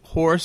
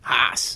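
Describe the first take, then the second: First: It is said with a plain r-ful vowel. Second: It is said r-less, Northern Maine style.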